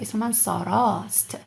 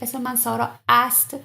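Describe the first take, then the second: First: One lengthened a vowel is said before st. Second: Two separate a vowels are said before st. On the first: The speaker calls it right. "I just make it a little bit longer" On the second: The speaker calls it wrong. "Why I don't say اسم من سارا است?"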